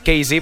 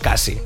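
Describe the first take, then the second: First: It is read with English letter names. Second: It is read with Catalan letter names. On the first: "si és en anglès" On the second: "que la pronuncies en català doncs és Cassie"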